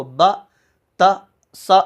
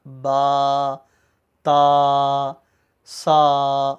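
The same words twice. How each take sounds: First: "با، تا، سا" cut short as a wrong example; short, abrupt "با، تا، سا"; clipped short vowels. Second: "با، تا، سا" each held long on a low level note; slow, sustained "با، تا، سا"; long drawn-out vowels. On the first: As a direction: say each syllable quickly, no stretch. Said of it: "ایسا نہیں پڑھنا". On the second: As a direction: stretch every vowel evenly. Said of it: "اسی طرح کھینچ کر پڑھا جاتا ہے". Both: Shown as a demonstration.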